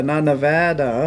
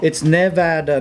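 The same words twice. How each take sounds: First: "Nevada" slow, with a weak nuh at the start; rejected Nevada pronunciation. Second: "Nevada" with a clear NEV at the start; Nevada pronunciation. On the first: Explaining the DMV sign, slow "Nevada" starting nuh. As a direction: reduce the first vowel of "Nevada" to nuh. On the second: Explaining the DMV sign, "Nevada" said with NEV. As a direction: open the first vowel of "Nevada" as in never. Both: Shown as a demonstration. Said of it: "trying to spell it out".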